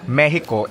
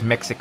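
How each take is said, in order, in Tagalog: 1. Binibigkas ang salita sa paraang Espanyol. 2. Binibigkas ang salita sa paraang Ingles. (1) "if it's your local language" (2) "if it's in English"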